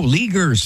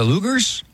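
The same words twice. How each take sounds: First: "Legers", first syllable like "lee", hard g; corrected surname pronunciation. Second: "Lugers", first syllable like "loo"; mispronounced surname. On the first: Host correcting himself on a couple's surname, "Legers" pronounced with ee. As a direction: say "Legers" with an ee vowel, like "LEE-gers". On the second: Host naming a couple he met on air, "Lugers" mispronounced with oo. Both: Real, not acted. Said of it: "that's the way to pronounce it".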